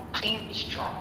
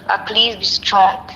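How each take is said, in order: First: Breathy whispered plea. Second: Said in the usual way. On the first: Real, not acted. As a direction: whisper it softly as a last plea. Friend consoling her on call.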